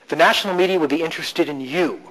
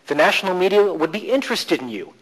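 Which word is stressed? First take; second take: you; interested. First: The stress is on you. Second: The stress is on interested.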